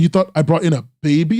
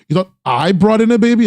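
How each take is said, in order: First: The stress is on the word baby. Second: The stress is on the word I.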